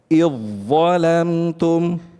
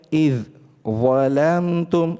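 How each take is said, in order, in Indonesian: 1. Bunyi dh akhir menyatu sepenuhnya dengan konsonan berikutnya. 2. Bunyi dh akhir dibaca terpisah sebelum kata berikutnya. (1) "wajib kita mengidghamkan langsung ke huruf dha" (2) "ini tidak ada proses idgham"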